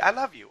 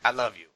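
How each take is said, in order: First: It is said in a warm, smiling, joyful tone. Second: It is said in an insincere, fake-sounding tone. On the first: The love is felt sincerely. "in a joyful, smiling way" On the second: The love is not truly meant. "there's a fakeness in the tone of that I love you"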